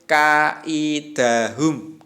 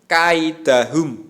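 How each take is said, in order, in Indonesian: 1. Vokal setelah k dipanjangkan. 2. Vokal setelah k dibiarkan pendek. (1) "Tidak boleh kaidahum, gitu tidak boleh" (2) "harus kaidahum"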